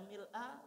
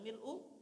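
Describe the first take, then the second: First: The word ends with an 'a' vowel. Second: The word ends with a 'u' vowel. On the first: "Mau dibaca mil'a" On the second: "mau dibaca mil'u boleh"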